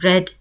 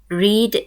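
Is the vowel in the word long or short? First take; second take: short; long. First: The vowel is a short e sound. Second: The vowel is a long ee sound. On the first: It is the past tense or past participle. "in the past and past participle ... short E" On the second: It is the present tense. "in the present simple ... the long E"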